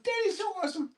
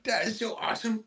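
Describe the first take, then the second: First: Very high squeaky praise; dog talk, even higher. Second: Dog talk. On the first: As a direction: push the pitch way up for the dog. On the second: Praising dog in baby voice. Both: Real, not acted.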